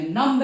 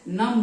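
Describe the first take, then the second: First: "नम्ब" with the b sounded at the end; the mistaken "नम्ब", b pronounced; wrong way with b. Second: "नम" with no b, ending on m; right way, silent b. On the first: Teacher showing students the wrong "नम्ब" with b. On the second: Teacher giving students the correct "नम" without b. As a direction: clean "नम", b dropped. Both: Shown as a demonstration. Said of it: "बी को आप नहीं बोलेंगे".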